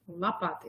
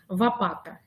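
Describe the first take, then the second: First: The first sound is a clear L sound. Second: The first sound is a V instead of L. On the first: The speaker calls it right. "Ребенок говорит, лопата исправляет" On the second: The speaker calls it wrong. "я произношу ребенку неправильное слово"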